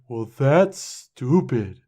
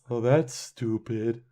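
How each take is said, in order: First: It is said with lively, varied inflection. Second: It is said flatly, with little inflection.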